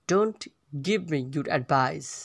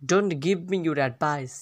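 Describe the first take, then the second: First: Slowly, with a pause after "Don't"; slow repeat. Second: Said in the usual way. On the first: Shown as a demonstration. Teacher repeats phrase slowly in parts.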